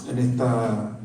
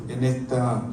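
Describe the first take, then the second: No difference in how they are said.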